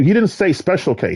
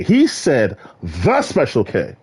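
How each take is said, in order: First: Said in the usual way. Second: THE stressed, slow and deliberate. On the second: Shown as a demonstration. Correcting a friend, stressing "the Special K". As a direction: lean hard on "the" in "the Special K".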